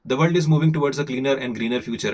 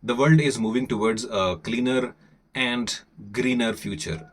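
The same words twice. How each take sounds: First: Brisk, quick Indian accent read; faster reading. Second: Said in the usual way. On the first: Shown as a demonstration. Teacher rereading the article for learners, faster. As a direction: speed through the line in an Indian accent. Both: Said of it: "this time I will be a little faster".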